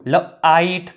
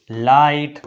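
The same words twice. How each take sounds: First: લ આઈટ split after the first consonant; teacher breaking લ આઈટ into parts; sounded out. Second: Said in the usual way. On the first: Shown as a demonstration. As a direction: say લ alone, then આઈટ. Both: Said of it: "લખાય અથવા વંચાય છે".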